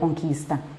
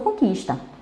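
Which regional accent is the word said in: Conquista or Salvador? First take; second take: Conquista; Salvador. First: It is said with the local Conquista accent. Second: It is said with a Salvador accent. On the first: This is how people in the new city say it. "eu venho a ter o conquista" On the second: This is how the speaker still says it. "por enquanto eu ainda uso o conquista"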